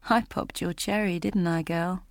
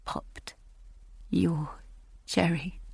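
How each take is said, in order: First: A hint of a sleazy man, softer and gloating; lightly voiced, quiet crude leer; leering Robbie. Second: A stunned, sickened whisper; whispered echo. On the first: Robbie taunting Julia close up, softer sleazy gloat. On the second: Acted. Julia repeating Robbie's crude words to herself in a whisper. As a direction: breathe the words in disgust, barely voiced. Narrator echoes his words.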